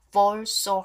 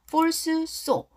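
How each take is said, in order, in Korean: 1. 첫 번째 s가 두 번째 s에 합쳐져요. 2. 두 s 소리를 모두 따로 발음해요. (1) "앞에 S는 발음하지 않고요. 그냥 fall so hard" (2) "falls so 이러지 마시고요"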